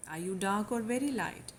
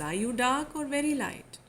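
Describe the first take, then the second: First: Said in the usual way. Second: "very" pushed up and leaned on in the question; slightly higher question with weight on "very"; stress on very. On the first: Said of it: "putting more queries". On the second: Shown as a demonstration. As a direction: quote the landlady, pressing hard on "very". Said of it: "wearing the emphasis".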